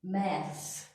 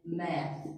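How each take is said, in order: First: "Maths" said with a clear s on the end; British maths. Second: "math" said with no s, ending on th; American math. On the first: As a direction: say "Maths", landing on the final s. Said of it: "with an S". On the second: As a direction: say "math" and stop at the th. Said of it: "we do not put an S on math". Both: Shown as a demonstration.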